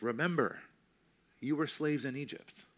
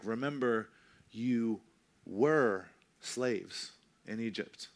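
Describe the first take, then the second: First: Remember hit with a fall, then a pause; stress on Remember. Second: Were drawn out slowly, slaves in Egypt in the past; slow down and lean on were; stress on were. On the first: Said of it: "I tend to read it like". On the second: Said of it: "maybe he said it more like". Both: Shown as a demonstration.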